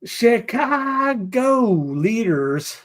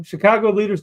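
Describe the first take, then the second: First: Very slow, high, stretched CHICAGO; drawn-out headline. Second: Said in the usual way. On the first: Pretend. Host opens a Chicago headline, playfully drawn out.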